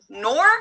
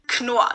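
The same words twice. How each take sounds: First: The K at the start is silent. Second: The K at the start is pronounced. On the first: The speaker calls it wrong. "Americans pronounce it Knorr" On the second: The speaker calls it right. "The K is not silent here"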